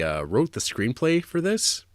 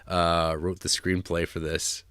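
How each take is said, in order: First: "wrote the screenplay for this" rising high at the end like a quiz; rising question tune. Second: "wrote the screenplay for this" lower, slower and falling flat; falling statement tune. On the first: Host quizzing his co-host about the writer, rising question. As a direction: tease it as a question, pitch up on "this". Teasing question, then reveal. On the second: Host revealing the screenwriter to his co-host, low falling statement. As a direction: state it as a settled fact, dropping down. Answer restating the fact. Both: Real, not acted.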